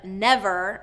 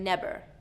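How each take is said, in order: First: It starts with teeth on the lower lip. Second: It starts with both lips closed together. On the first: The speaker calls it right. "instead of that V sound" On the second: The speaker calls it wrong. "I'm hearing a b"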